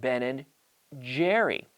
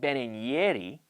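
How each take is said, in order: First: Jerry begins with a j sound. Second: Jerry begins with a y sound. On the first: The speaker calls it right. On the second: The speaker calls it wrong. "It's not"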